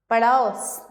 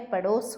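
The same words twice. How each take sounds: First: पड़ोस said as "pa-DAUS"; पड़ोस with a drawn-out "au"; wrong au vowel. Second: Said in the usual way. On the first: Shown as a demonstration. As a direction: widen the o of पड़ोस to "au". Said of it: "नहीं होता है". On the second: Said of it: "पड़ोस होता है".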